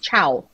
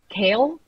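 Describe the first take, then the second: First: The name starts with a ch sound. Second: The name starts with a k sound. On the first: The speaker calls it right. "He will fo- forever be Chow" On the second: The speaker calls it wrong.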